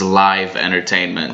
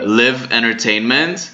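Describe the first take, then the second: First: The word live rhymes with five. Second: The word live rhymes with give. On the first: The speaker calls it right. "in this case it would be pronounced as" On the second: The speaker calls it wrong. "here you said uh"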